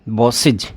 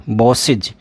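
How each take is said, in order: Both takes have the same delivery.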